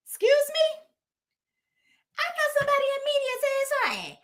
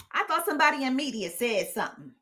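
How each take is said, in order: First: High, fast put-on diva voice; mock sassy voice. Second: Said in the usual way. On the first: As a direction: snap back in a high mocking voice.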